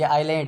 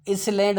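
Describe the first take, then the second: First: आइलैंड with a silent s; आइलैंड, the s dropped; correct pronunciation. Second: इसलैंड with the s sounded; wrong pronunciation. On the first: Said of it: "ये आइलैंड है". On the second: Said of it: "इसलैंड नहीं कह सकते आप". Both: Shown as a demonstration.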